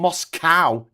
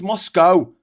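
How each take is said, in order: First: The last syllable rhymes with cow. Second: The last syllable rhymes with go. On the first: The speaker calls it wrong. "It's not called Moscow, you idiot" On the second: The speaker calls it right. "as in go away"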